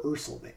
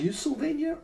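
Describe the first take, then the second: First: "Ursylvania" begun with "ur" as in "fur"; first syllable of "Ursylvania" with an R-coloured "er"; UR pronunciation. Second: "Ursylvania" begun with a "you" sound; first syllable of "Ursylvania" like "you", no R; YOO pronunciation. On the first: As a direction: say "Ursylvania" as UR-sul-VAIN-ya. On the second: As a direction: say "Ursylvania" as YOO-sul-VAIN-ya. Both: Shown as a demonstration. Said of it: "I think it's Ursylvania".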